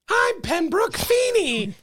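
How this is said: It is said in a squeaky, effeminate voice.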